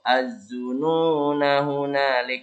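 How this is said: It runs straight on, with a short final vowel. The reciter continues without stopping. "Tapi kalau dibaca langsung"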